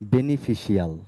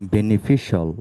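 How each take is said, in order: First: The ending is a drawn-out 'shee-al'. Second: The ending is a short 'shal'. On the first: The speaker calls it wrong. "অনেকেই উচ্চারণ করেন এভাবে" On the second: The speaker calls it right. "আমরা এখন থেকে বলবো বেনিফিশিয়াল"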